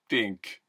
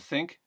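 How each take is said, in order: First: The word begins with a t sound. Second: The word begins with a th sound.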